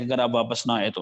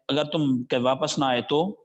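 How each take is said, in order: First: Said in the usual way. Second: The final تو lifts upward like a question; questioning tune. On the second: Shown as a demonstration. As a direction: say it as a question, rising on the last word تو. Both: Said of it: "یہ tune اس کا بھی سوالیہ تھا".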